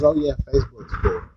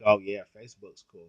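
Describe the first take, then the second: First: Light mock imitation of the woman, a touch higher; mimicking her. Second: Said in the usual way. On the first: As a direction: echo her breezy reply in a lightly mocking voice. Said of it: "She goes". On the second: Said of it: "And I'm like".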